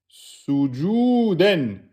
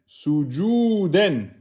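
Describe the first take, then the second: No difference in how they are said.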